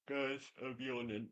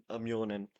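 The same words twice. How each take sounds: First: Softer, words dragged through a yawn. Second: Said in the usual way. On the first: Real, not acted. Host tells the guys he's yawning, softer mid-yawn. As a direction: let the yawn stretch "yawning". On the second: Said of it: "I'm not yawning anymore".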